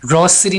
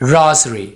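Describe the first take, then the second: First: The middle consonant is an 's' sound. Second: The middle consonant is a 'z' sound. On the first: The speaker calls it wrong. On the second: The speaker calls it right.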